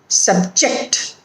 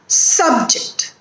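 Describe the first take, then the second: First: The stress is on the second syllable. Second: The stress is on the first syllable. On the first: It is used as a verb. "when it is a verb, it is on the second syllable" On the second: It is used as a noun. "when there is a noun or an adjective, the stress is on the first syllable"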